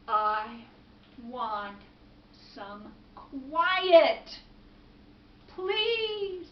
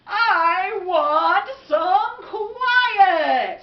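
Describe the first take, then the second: First: Word by word, with long pauses; halting, pleading request; worn-out plea. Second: Long drawn-out, high, very loud bellow; booming, slow cry of frustration; exasperated shout. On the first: Man begs for quiet. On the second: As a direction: holler each word out, stretching it. Man demands quiet in story. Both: Acted.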